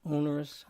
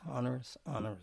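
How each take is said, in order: First: "Onerous" starting like "own"; long O in onerous. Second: "onerous" starting like "on", trailing softer; short O in onerous. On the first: Host testing the word's readings, "Onerous" with long O. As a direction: say "Onerous" as OH-ner-us. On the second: Host settling on a reading, "onerous" with open AH. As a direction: say "onerous" as AH-ner-us. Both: Shown as a demonstration. Host trying both pronunciations aloud.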